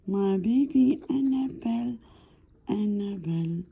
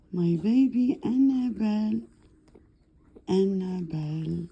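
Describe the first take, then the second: No difference in how they are said.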